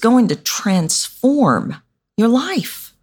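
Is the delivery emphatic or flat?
emphatic. Key words are stressed with added emphasis. The speaker signals what is important. The speaker calls it right. "All I did was add stress words"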